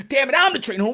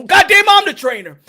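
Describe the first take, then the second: First: Said in the usual way. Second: Much higher and louder, insisting; indignant yell. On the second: Retold or imitated. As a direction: bellow that he's the trainer.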